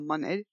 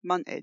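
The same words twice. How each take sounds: First: The T is dropped; the final D is dropped. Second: The T is dropped; the final D is heard. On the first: "you want to knock the D off as well" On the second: "you can't pronounce the T if you're from where I'm from"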